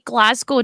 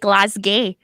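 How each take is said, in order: First: Glasgow is said with a North American pronunciation. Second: Glasgow is said with a British pronunciation. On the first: "Americans and Canadians say Glasgow" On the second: "do you say Glasgow?"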